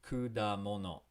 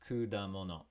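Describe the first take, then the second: No difference in how they are said.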